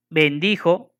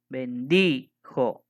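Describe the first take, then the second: First: Said in the usual way. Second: Bendijo very slow, DI held long; stress on DI. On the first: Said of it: "Aquí abajo se repite". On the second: Shown as a demonstration. Teacher showing the last stressed vowel in Bendijo, stress on a long DI. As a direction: stretch the DI in Bendijo, then a separate jo. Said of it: "La I es la última vocal acentuada".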